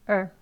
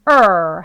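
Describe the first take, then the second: First: The vowel is weak, low and short. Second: The vowel is loud, long and strong. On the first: The speaker calls it right. "약하게 낮게 짧게 발음하시면 되겠습니다" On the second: The speaker calls it wrong. "er 하는 게 아니고"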